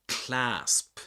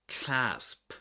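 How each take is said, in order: Both takes have the same delivery.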